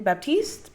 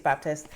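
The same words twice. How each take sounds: First: "Baptiste" said high, as an unsure attempt; mispronounced Baptist. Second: Said in the usual way. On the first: Real, not acted. Vlogger fumbling the name of the Baptists, unsure mispronunciation. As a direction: try "Baptiste" with a long ee in the last syllable. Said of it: "that I pronounced it wrong". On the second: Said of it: "I think it's Baptist".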